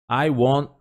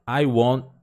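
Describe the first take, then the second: The two takes are said the same way.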